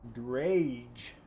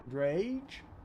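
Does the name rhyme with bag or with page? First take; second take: page; page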